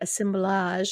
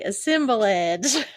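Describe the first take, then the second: First: The word is said without an extra syllable. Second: The word is said with an extra syllable. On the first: "It's probably like assemblage or something" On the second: "in Texas, we say assemblage. There's always an ex- extra syllable in there"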